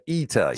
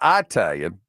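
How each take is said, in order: First: The first vowel is an 'ee' sound. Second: The first vowel is not an 'ee' sound. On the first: The speaker calls it right. "but Italian" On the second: The speaker calls it wrong. "not Italian"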